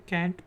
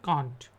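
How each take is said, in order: First: It is said with an American accent. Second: It is said with a British accent.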